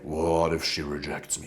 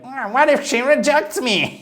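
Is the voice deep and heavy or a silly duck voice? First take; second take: deep heavy; duck voice. First: It is said in a deep, heavy voice. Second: It is said in a Donald Duck voice.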